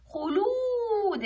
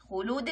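First: خلود with a long, high-held و; drawn-out long vowel. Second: Said in the usual way. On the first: Shown as a demonstration. Teacher showing the madd with waw, خلود held long. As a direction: stretch the oo in خلود right out. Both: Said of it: "خلود مد بالواو".

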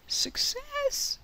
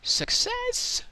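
First: Very high, put-on squeaky cheer; a silly high-pitched echo of the cheer; squeaky victory cheer. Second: High, loud triumphant cheer; a much higher, louder victory cry; excited cheer. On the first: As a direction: squeak it out like a cartoon character. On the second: Real, not acted. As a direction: shout it out, thrilled it worked. Redstone farm works.

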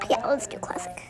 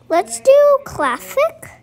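First: Hushed under the breath; whispered. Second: Sung, high, slow sing-song call; sung, belt it out playfully. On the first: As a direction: whisper it to yourself. Repeats choice under breath. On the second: Sings out choice loudly. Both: Real, not acted.

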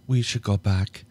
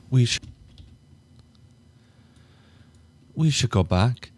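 First: Said in the usual way. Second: Higher, louder, shaken plea to leave; higher and louder, anxious; nervous plea. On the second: Acted. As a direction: urge him to turn back, rattled. She hesitantly asks to leave.

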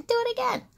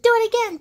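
First: Excited high plea. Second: High and loud, begging with delight; excited loud plea. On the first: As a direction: keep the thrill but ease off the volume. Emmy begs Doc to repeat. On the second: Emmy begs Doc for more pops, high and loud. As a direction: demand it like a thrilled little kid. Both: Acted.

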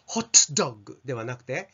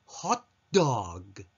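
First: Said in the usual way. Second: ホットドッグ said fast, the ト of ホット barely sounded; swallowed t. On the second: Shown as a demonstration. Teacher contrasting the right ホットドッグ with the wrong one. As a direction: clip the ト and run into ドッグ. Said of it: "ホットのトは ... ほとんど発音されずに".

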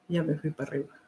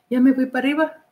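First: "Ya me fui para arriba" said much lower and much softer, in an odd put-on voice; low murmured voice. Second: Said in the usual way. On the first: Shown as a demonstration.

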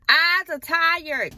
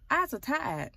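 First: TIRED drawn out loud and high; slow, loud stretch on "tired"; emphatic repeat. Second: Said in the usual way. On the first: Real, not acted. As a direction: hammer "tired" home, stretching it out. Repeats it because nobody understands.

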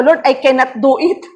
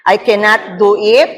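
First: Higher, pleading prayer to Lord; a touch of fearful begging; retold plea. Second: Each word set apart slowly, ending on a rise; name the forbidden phrase slowly and pointedly, as a warning; slow deliberate declaration. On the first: Pastor recalling her frightened plea to Lord. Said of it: "Yun yung deklarasyon ko". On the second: Shown as a demonstration. Preacher slowly quoting the phrase to avoid. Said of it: "Ano yung una?".

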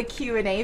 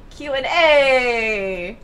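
First: Said in the usual way. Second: "A" drawn out long like an Italian "Hey"; Italian-style "A". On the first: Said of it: "I've always wanted to do a Q and A video". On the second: Shown as a demonstration. Gamer pitching a video title, playful Italian-style "A". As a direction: punch and stretch the final "A", letting it fall. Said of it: "call it Q and A".

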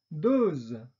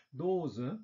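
First: 'dose.' said the French way, with a released voiced z; French 'dose.' with no schwa. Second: 'Dose' said the German way, with a final schwa, dozə; German 'Dose' with a trailing schwa; German-style. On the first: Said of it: "französischen Aussprache mit Detente". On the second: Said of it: "deutsche Aussprache ... Schwarlaut". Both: Shown as a demonstration.

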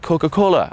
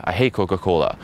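First: High, perky mock answer; mock-girly enthusiasm; imitated eager girl. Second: Understated falling dismissal; acted matter-of-fact put-down; deadpan contrarian reply. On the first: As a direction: sing it out as the girl. Imitates girl answering, versus his reply. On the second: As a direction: contradict her coolly. His contrarian reply in example.

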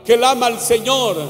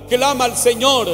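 Both takes have the same delivery.

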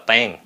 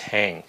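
First: TAN with unaspirated Vietnamese t; wrong T sound. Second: TANK with a puff of air on the T; correct aspirated T. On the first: Teacher showing what it is not, airless mispronounced TAN. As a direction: say TAN with no air after the t. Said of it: "không phải là tan". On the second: Teacher correcting learners, breath-puffed TANK. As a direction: let air burst out on TANK. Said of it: "nó phải xẹt hơi ra". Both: Shown as a demonstration.

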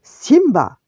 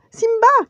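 First: Loud, stern father's shout; thundering. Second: Very high, loud scream of a name; alarmed cry. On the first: Furious Mufasa addressing his son, thundering. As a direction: boom the name out in anger. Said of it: "tonna Mufasa". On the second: Nala seeing Simba in danger, crying out. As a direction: shout a high-pitched warning. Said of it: "cria-t-elle". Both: A narrator's reading.

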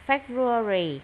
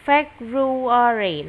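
First: "February" run together at normal speed; "February" in one smooth go; quicker reading. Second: "February" drawn out syllable by syllable; slow, loud model of "February"; slow pronunciation. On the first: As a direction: say "February" more briskly, syllables joined. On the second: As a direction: say "February" slowly and loudly for a learner. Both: Shown as a demonstration. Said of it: "Đọc nhanh lại".

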